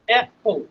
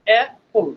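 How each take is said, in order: The two takes are said the same way.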